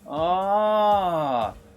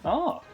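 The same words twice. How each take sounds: First: It sounds like sudden understanding. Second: It sounds surprised, like asking really.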